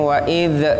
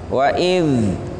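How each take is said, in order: First: The final consonant is released with a bounce. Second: The final consonant is held without a bounce. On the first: The speaker calls it wrong. "tidak boleh kita bacanya wa idz" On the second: The speaker calls it right. "ketika disukun tidak boleh qalqalah"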